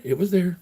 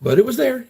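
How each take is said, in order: First: Said in the usual way. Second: "there" hit high and loud; emphatic insistence. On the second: Real, not acted. To chat, insisting the thing was still there, with a high, loud "there". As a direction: insist hard it was "there", much higher and louder.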